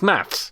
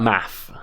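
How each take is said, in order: First: The word ends with an s sound. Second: The word ends without an s sound. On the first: It is the British form of the word. "It's got the S on it" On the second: It is the American form of the word. "I said math. I said it the American way. they say it without the S"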